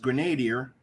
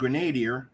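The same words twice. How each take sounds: First: The word is pronounced the English way. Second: The word is pronounced the English way.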